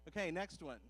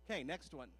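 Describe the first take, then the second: No difference in how they are said.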